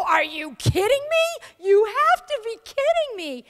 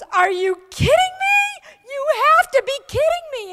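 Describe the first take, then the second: First: High, louder disbelief at her friend; incredulous cry. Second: High, loud incredulous cry of disbelief; incredulous shout. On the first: Speaker echoing the boss to the new officer, high and incredulous. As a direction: throw her words back, high and incredulous. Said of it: "my turn to go". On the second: Boss shouting in disbelief at her new officer, incredulous and high. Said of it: "And she goes". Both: Retold or imitated.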